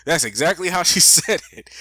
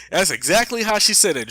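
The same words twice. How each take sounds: First: Laughing through "That's exactly how she said it"; real laugh breaking into the words. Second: Said in the usual way. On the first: Real, not acted. Laughing at senator's drawl.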